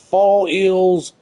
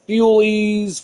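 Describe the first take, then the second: First: The name sounds like the phrase 'fall ill'. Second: The name does not sound like 'fall ill'. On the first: "I like to say Fall Ill because it kind of sounds funny" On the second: "I don't know how to pronounce it"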